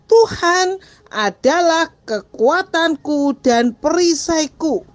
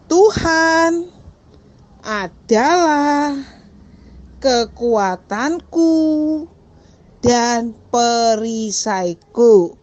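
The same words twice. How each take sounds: First: The sentence is spoken at moderate speed. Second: The sentence is spoken slowly. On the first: "Sekarang agak lebih cepat" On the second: "Pelan-pelan dulu ya"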